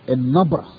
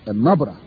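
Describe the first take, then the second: The two takes are said the same way.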